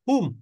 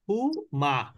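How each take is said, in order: First: The word ends in a closed m sound. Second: The word ends with an added a vowel. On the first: "সাকিন হলে কিন্তু দেখেন আপনি কিন্তু এখানে বলবেন কি হুম" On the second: "কিন্তু জবর হলে কি বলতেন হু মা"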